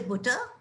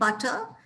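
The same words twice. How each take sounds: First: The first vowel is a rounded 'oo' sound. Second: The first vowel is an open 'uh' sound. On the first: This is how it is said in the north of England. "in the north of England, they say" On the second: This is how it is said in the south of England. "in England, it's more a"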